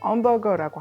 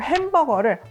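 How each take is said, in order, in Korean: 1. 이 단어는 h 소리 없이 시작해요. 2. 이 단어는 h 소리로 시작해요.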